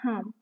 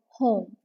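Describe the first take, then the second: First: The vowel is flattened, without a clear 'oh' glide. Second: The vowel is a clear, rounded 'oh' glide. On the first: The speaker calls it wrong. "not home" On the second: The speaker calls it right. "You should oh oh home"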